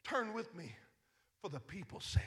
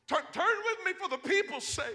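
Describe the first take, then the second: First: Quiet plea. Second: Louder plea. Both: Retold or imitated. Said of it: "He said".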